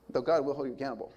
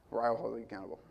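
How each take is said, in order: First: God leaned on, falling after; weight the word "God", the rest lighter; stress on God. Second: Weight the word "I" as a personal warning; stress on I. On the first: Preacher to congregation contrasting God's judgment, stress on God. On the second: Preacher warning children about his wife, stress on I. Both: Shown as a demonstration.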